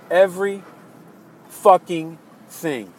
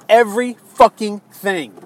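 First: "Every fucking thing" slow, word by word, pauses between; slow emphatic repeat. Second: "every fucking thing" punched out angrily; emphatic anger. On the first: Disappointed voter repeating "Every fucking thing", slow and spaced out. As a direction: separate "Every", "fucking", "thing" with weary weight. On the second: Voter accusing president of backpedaling, "every fucking thing" punched angrily. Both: Real, not acted.

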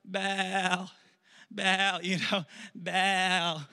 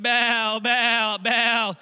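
First: Mock pleading moan; drawn-out acted calling. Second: High, loud repeated chant; loud mock crowd cry; acted shouting. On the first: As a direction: stretch the name out like a weary chant. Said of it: "so now they're like". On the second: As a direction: shout it like worshippers calling their god. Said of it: "they're shouting".

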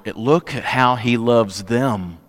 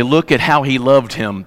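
First: "look at how he loves them" said slowly and softly, leaning on "look"; slow down and press the corrected reading; slow, soft correction. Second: Said in the usual way. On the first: Shown as a demonstration. Pastor correcting how the crowd read Jesus's tears, slow and soft. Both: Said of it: "That's not what he's crying over".

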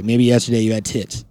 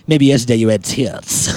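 First: Creepy voice. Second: Low creepy delivery. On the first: Real, not acted. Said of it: "I don't know why my voice did that". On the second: Shown as a demonstration. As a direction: say it like a lurking creep. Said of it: "That's my creepy voice".

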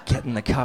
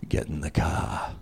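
First: Lighter dad voice. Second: Much lower, slow, menacing Boston growl; Darth Vader dad. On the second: Dad summoning kids on Saturday morning, low slow menace. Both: Retold or imitated. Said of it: "like Darth Vader with a Boston accent".

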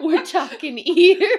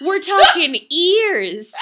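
First: Slow, louder attempt at Australian that comes out New York; mock Australian accent gone wrong; botched Australian accent. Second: Slow and much louder, every word weighted; slow, loud shock build; dramatic emphasis. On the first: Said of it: "That's New York". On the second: Acted. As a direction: hammer it home like a tabloid teaser. Dramatic build-up of gross details.

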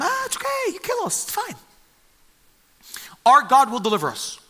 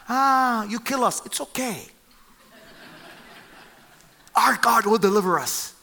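First: Much higher, airy and nonchalant; melodramatic falsetto. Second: A lightly voiced breezy shrug of a reply; melodramatic calm. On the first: Retold or imitated. Three men breezily answering the furious king, hammed-up falsetto. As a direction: squeak out a carefree shrug at death. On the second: Three men answering the king's threat, lightly melodramatic. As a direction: toss off death like it's nothing, a touch higher. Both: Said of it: "their response to him is so melodramatic".

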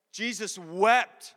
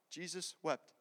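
First: "Jesus wept" drawn out slowly, full-voiced, with weight on "wept"; emphatic verse quote. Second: Quiet, matter-of-fact delivery, much softer; understated verse quote. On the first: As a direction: stretch "wept" long for profound weight. Same verse repeated as profound. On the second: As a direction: say it softly and simply. Shortest verse, first said simply. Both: Shown as a demonstration.

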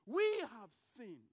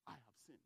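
First: "We have sinned" much louder and slow, each word weighted; loud slow confession. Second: Much softer, hushed admission; quiet confession. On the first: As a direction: proclaim "We have sinned" slowly and loudly. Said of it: "comes before God ... and says". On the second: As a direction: confess it almost under your breath. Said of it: "sit before God and say". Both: Pretend.

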